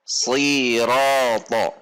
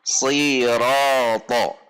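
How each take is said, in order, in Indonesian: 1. Ini diawali dengan bunyi s yang berat dan emfatis. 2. Ini diawali dengan bunyi s yang berat dan emfatis.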